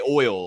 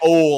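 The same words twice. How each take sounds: First: Oil is said with a Northern accent. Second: Oil is said with a Southern accent.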